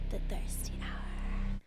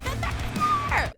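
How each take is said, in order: First: It is said quietly and sneakily. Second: It is screamed loudly.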